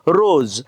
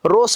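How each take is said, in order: First: The word ends with a z sound. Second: The word ends with an s sound. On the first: The speaker calls it right. "आपण काय म्हणतो, रोज" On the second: The speaker calls it wrong. "रोस म्हणायला पाहिजे होतं"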